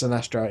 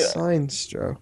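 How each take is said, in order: First: Sinestro said as si-NESS-troh; short I, stress the NES in Sinestro; correct pronunciation. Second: Sinestro said as SIGN-stroh; spelling pronunciation. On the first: Podcaster conceding the real name, Sinestro as si-NESS-troh. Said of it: "I know it is pronounced". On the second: Podcaster insisting on his own reading, Sinestro as SIGN-stroh. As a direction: read Sinestro with a long I, two beats. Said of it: "that's what it's spelled". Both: Shown as a demonstration.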